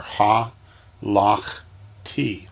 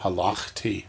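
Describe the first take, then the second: First: "ha, lach, ti" in three separated beats; syllable by syllable. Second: Said in the usual way. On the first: Shown as a demonstration. Teacher dividing a word for students, "ha, lach, ti" piece by piece. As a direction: pause between the parts of "ha, lach, ti". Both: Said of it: "the syllables are".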